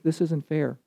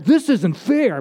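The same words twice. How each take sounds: First: It is said plainly, without any attitude. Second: It is said with an indignant, aggrieved attitude. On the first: The speaker calls it wrong. "You wouldn't say" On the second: The speaker calls it right. "And you say with a little attitude"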